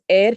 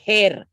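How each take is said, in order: First: The word begins with no h sound. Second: The word begins with an audible h sound. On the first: The speaker calls it right. "H is silent" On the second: The speaker calls it wrong. "You don't say heir"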